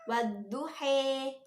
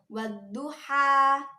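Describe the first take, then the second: First: The final vowel is tilted toward an 'e' sound. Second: The final vowel is an open 'a' sound. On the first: The vowel is tilted by the imalah rule. "karena diimalahkan menjadi wadduhe" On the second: This is the original form of the word. "aslinya itu wadduha"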